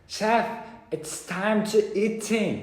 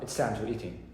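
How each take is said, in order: First: It is said slowly. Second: It is said fast.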